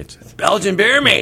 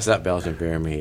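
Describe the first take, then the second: First: The name is said excitedly, like an exclamation. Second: The name is said flatly, without excitement.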